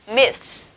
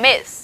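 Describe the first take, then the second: First: MISS said as "myths", th then s; "miss" with a long ths ending; s added after th. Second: "miss" said as myth, no added s; final th sound. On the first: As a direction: add a hissed s to "miss" after th. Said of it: "đây thêm S". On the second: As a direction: end "miss" with tongue-tip th. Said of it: "âm cuối của chúng ta đó là". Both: Shown as a demonstration.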